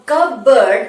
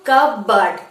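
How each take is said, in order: First: কাপবোর্ড with p sounded and full "board"; wrong pronunciation. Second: কাপবোর্ড as kuh-burd, p silent; correct pronunciation. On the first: Teacher saying what we will not say, wrong pronunciation. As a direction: read কাপবোর্ড as spelt, cup-board. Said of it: "আমরা কাপবোর্ড বলবো না". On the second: Teacher answering what we will say, correct pronunciation. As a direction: drop the p in কাপবোর্ড, end on "burd". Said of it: "কি বলবো?". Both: Shown as a demonstration.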